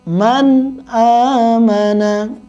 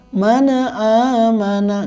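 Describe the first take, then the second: First: The n is crisp with no added vowel. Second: A loose extra vowel follows the n sound. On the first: The speaker calls it right. "dibaca jelas" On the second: The speaker calls it wrong. "man yang dibaca kendor jadinya tawalud"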